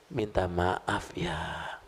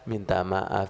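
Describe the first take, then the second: First: It is said earnestly and sincerely. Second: It is recited flatly and mechanically.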